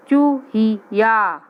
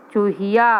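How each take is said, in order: First: चूहिया stretched very slowly, falling at the end; slow sounding out. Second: Said in the usual way. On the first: Shown as a demonstration. Teacher to young pupils, first a slow चूहिया. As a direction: draw out चूहिया syllable by syllable. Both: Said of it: "word said slowly then normally".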